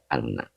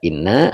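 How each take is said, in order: First: The first vowel is an 'a' sound. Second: The first vowel is an 'i' sound. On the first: "ada juga yang baca anna" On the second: "Ada yang baca inna"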